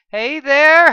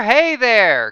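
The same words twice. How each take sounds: First: High, loud calling out; excited greeting. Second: Loud repeated call, falling; excited greeting. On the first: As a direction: bounce in shouting hello. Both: A narrator's reading.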